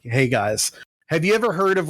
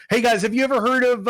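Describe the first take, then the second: First: Halting, unsure mock pitch; hesitant first try. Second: Higher, brighter presenter pitch; upbeat restart. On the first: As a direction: start the pitch tentatively, fumbling. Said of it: "this is what basically he said is like". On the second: Retold or imitated. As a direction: restart it as a peppy host. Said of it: "let me, let me start over".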